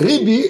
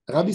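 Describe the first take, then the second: First: The first vowel is an 'i' sound. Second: The first vowel is an 'a' sound. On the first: The word means my master. The speaker calls it right. "Ribbi en hébreu, c'est mon maître" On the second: The word carries no meaning. The speaker calls it wrong. "ça n'a aucune signification"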